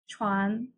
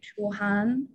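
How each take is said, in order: First: It is said fast, blended into one syllable. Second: It is said slowly, as two separate syllables.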